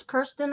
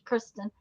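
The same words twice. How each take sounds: First: "Kirsten" with the r after the vowel, KUR-stin. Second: "Kristen" with the r before the vowel, KRIS-tin. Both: Shown as a demonstration. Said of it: "I'm not sure whether it's Kirsten or".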